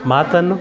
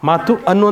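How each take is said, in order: First: One joined word said in a single breath. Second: Two separate words with a break between them. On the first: The speaker calls it right. "ಕಾಲ ವಿಳಂಬ ಇಲ್ಲದೆ ಒಂದೇ ಸರಿ ಒಂದೇ ಉಸಿರಲ್ಲಿ ಹೇಳ್ತೇವೆ" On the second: The speaker calls it wrong. "ಮಾತು ಅನ್ನು ಅಂತ ಹೇಳ್ತೀವ, ಇಲ್ಲ"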